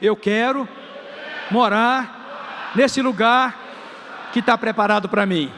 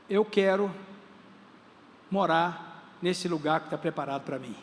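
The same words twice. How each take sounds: First: It is said louder, with more energy. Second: It is said calmly, at normal strength.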